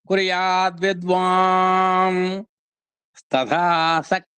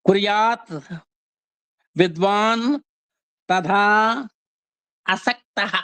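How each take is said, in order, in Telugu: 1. ఈ పదాలను కలిపి, చివరి ధ్వనులు మారుస్తూ పలుకుతారు. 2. ఈ పదాలను విడివిడిగా, ఎలాంటి ధ్వని మార్పులు లేకుండా పలుకుతారు. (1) "అని చదువుకోవాలి" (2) "ఇక్కడ ... అని ఉంటుంది"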